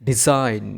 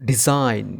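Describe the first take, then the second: Both takes have the same delivery.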